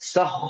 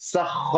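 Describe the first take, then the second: First: It is said with rounded lips, sounding heavy. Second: The same.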